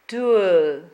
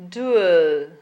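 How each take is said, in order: The two takes are said the same way.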